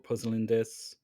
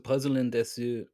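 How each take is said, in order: First: The final u vowel is dropped entirely. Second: The final u vowel is clearly pronounced. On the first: "you can just drop the u" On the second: "you can pronounce it if you want"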